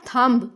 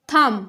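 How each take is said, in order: First: The final B sound is pronounced. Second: The final B sound is silent. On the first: The speaker calls it wrong. "not thumb" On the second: The speaker calls it right. "B is silent"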